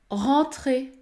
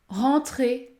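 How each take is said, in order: Both takes have the same delivery.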